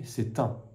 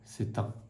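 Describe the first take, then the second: First: The t of c'est links into un. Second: The same.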